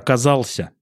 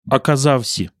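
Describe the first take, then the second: First: An L sound stands before the ending -ся. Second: A V sound stands before the ending -ся. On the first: This is the standard form. "это оказался" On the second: This is the local dialect form. "мы произносим «в» на месте «л»"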